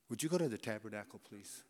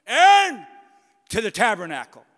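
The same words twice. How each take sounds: First: Sudden soft, quick, polite ask; tender divine request; gentle request. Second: Shouted name up high, clipped order after; booming divine call to Aaron; God's stern command. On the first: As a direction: turn gentle and kind for Moses. God gently asks Moses. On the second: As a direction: bark the summons like a furious God. God summons Aaron sharply. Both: Acted.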